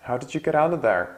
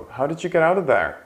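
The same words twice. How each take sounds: First: Said in the usual way. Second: Fast high model. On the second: Shown as a demonstration.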